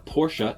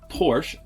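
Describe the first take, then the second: First: The name is pronounced the fancy, refined way. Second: The name is pronounced the plain, everyday way.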